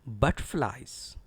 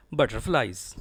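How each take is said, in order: First: Butterflies as BUT-flies, middle nearly swallowed; careful butterflies, strong BUT, no full R; correct pronunciation. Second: Butterflies as but-ter-flies, middle R sounded; students' mispronunciation. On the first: Shown as a demonstration. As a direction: stress BUT in butterflies and reduce "ter". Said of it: "Actually, it is". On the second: Retold or imitated. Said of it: "Certain students pronounce it as".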